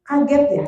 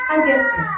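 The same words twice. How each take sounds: First: Kaget ya, said kindly with a slight lift; name the child's shock kindly; validating a startled child with Kaget ya, gently raised. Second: Kaget ya, said much higher in a sympathetic sing-song; a mother validating her startled child with a high Kaget ya. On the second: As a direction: echo the child's shock in a high caring voice. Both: Shown as a demonstration. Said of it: "pertama validasi dulu".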